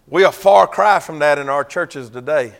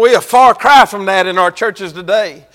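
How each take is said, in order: First: Said in the usual way. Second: Repeated a touch louder and more pressing; preached harder. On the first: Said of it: "Come on now". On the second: Shown as a demonstration. Preacher repeats it to the congregation, then louder and pressed. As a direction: drive the point home a second time. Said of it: "Come on now. Come on".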